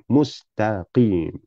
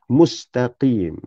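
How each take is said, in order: No difference in how they are said.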